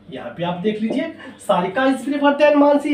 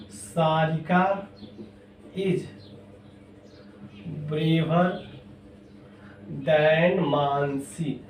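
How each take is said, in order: First: Said in the usual way. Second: Slow, with long pauses between words; word-by-word board dictation; dictating slowly. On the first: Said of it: "teacher repeats the example at normal pace". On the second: Shown as a demonstration. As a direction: give the class time to write each word. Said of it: "teacher dictates example with pauses".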